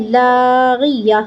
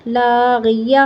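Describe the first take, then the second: First: "لاغیہ" slow, closing on a breathed h; waqf with ha. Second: "لاغیہ" ending on an open ya; joined spelling-out. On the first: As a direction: stop on "لاغیہ" with an audible h at the end. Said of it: "ہا کی آواز نکالنی ہے". ("لاغیہ" کے آخر میں ہا کی آواز) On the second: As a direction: join the syllables of "لاغیہ", leaving the last vowel open. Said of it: "یا زبر یا". ("لاغیہ" آخر میں کھلا یا) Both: Shown as a demonstration.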